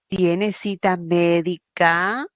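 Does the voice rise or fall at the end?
rise. The voice rises at the end, like a question.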